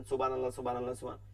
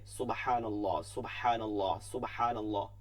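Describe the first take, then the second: First: Rattled-off monotone সুবহানাল্লাহ, trailing away; hurried lifelong habit. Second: Low সুবহানাল্লাহ, each with a long "haa"; correct measured tasbih. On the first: Retold or imitated. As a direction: run সুবহানাল্লাহ together with short vowels. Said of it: "সারা জীবন এরকমই পড়ছেন". (অভ্যাসে তাড়াহুড়ো করা তাসবিহ) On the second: Shown as a demonstration. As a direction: give every সুবহানাল্লাহ its full length, separately. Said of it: "কেউ হবে?". (ধীর, শুদ্ধ তাসবিহ)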